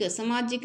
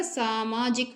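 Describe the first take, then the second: First: सामाजिक with a short first vowel, sa-maa-jik; wrong form samajik. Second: सामाजिक slowly, with long first saa; correct form saamaajik. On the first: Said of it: "सामाजिक नहीं होता". (सामाजिक को समाजिक की तरह) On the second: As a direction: stretch the opening vowel of सामाजिक. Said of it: "सामाजिक होता है". (सामाजिक, पहला सा लंबा खींचकर) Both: Shown as a demonstration.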